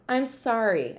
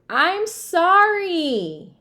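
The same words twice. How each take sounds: First: It is muttered softly. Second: It is yelled loudly.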